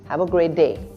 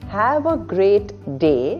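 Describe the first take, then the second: First: The t at the end of great is dropped. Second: The t at the end of great is pronounced.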